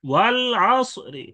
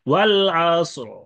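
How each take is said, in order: First: A faint short i is heard after the r. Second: The word ends on the consonant with no vowel. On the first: "রি হরকত উচ্চারণ করে অফ করা এটা জায়েজ আছে" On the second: "রাপুর করে যেমন সাকিন করে অফ করা হয়েছে"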